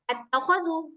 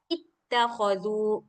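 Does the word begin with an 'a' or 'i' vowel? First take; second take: a; i. First: The word begins with an 'a' vowel. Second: The word begins with an 'i' vowel. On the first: The speaker calls it wrong. "dia nggak dibaca at-takhazu" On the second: The speaker calls it right. "tetapi dia dibaca ittakhazu"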